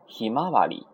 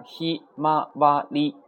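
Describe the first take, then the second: First: Said in the usual way. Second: ひまわり slowly, each kana held apart. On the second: Shown as a demonstration. Teacher counts out four kana, ひまわり syllable by syllable. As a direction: spell out ひ, ま, わ, り as separate beats. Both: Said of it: "四个假名".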